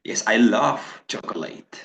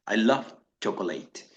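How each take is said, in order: First: Love held long, slow and open. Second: Love cut short into a quick T, flowing into chocolate; short clipped loved. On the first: Teacher showing students the present tense, long love. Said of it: "La F suena muy larga". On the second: Teacher showing the past tense, love cut short. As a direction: clip love off fast like loved. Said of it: "ese love tiene que ser más corto". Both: Shown as a demonstration.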